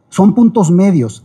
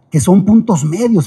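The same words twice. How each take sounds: First: "son puntos medios" said slower, each word weighed; slow emphatic repeat. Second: Said in the usual way. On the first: Shown as a demonstration. Teacher repeating the key idea for students, slow and emphatic. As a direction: lean on "puntos" as you repeat it. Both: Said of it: "fíjense".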